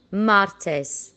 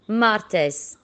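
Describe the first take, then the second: No difference in how they are said.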